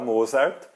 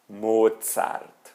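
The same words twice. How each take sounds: First: It is said with Brazilian Portuguese sounds. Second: It is said with a German ts sound. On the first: This is the common Brazilian way. The speaker calls it wrong. "Esse é o jeito brasileiro de dizer" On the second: This is the native German way. The speaker calls it right. "o jeito correto é dizer Mozart"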